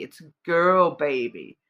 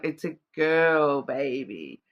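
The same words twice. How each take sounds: First: Slow, "girl" in "It's a girl baby" leaned on, less acted; stress on girl. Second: Put-on slow, "girl" in "It's a girl baby" stretched and punched; stress on girl. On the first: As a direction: spell out the emphasis on "girl" calmly. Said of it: "The emphasis is that it's a girl baby". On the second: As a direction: hit "girl" hard and slow, like a movie line. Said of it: "the emphasis on it". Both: Shown as a demonstration.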